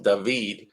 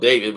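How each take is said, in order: First: "David" said as dah-VEED; "David" in its dah-VEED pronunciation; pronounced Dah-VEED. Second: Said in the usual way. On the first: Shown as a demonstration. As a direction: say "David" with an ah, then a stressed long ee. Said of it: "but it's pronounced David". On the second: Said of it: "spelled David".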